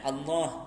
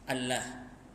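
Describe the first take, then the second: First: The l sound is thick and heavy. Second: The l sound is thin and light. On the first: The speaker calls it right. "betul lah yang betul" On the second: The speaker calls it wrong. "dia tak sebut Allah, tak tebal"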